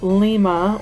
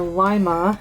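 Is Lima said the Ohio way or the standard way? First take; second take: standard; Ohio. First: The name is said the usual, non-Ohio way. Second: The name is said the way Ohioans say it.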